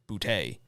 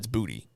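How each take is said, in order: First: The name is said in a fancy-sounding way. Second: The name is said plainly, like the word booty. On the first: The speaker calls it wrong. "all the announcers have been pronouncing it um, Boutte, but it's not" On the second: The speaker calls it right.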